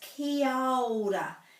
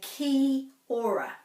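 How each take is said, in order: First: The a and o run together into one. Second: The a sound after ki is left out. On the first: The speaker calls it right. "they put this ao together" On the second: The speaker calls it wrong. "many people say ki ora. So they're missing out this"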